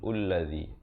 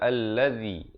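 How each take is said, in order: First: The word begins with a u vowel. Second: The word begins with an a vowel. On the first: The speaker calls it wrong. "ataupun ulladzi" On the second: The speaker calls it right. "Kita baca alladzi"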